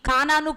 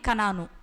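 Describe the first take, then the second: First: The first vowel is drawn out long. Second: The first vowel is kept short. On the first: The speaker calls it wrong. "కానాను కాదండి" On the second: The speaker calls it right. "ఖచ్చితంగా pronunciations కరెక్ట్గా పలకాలి"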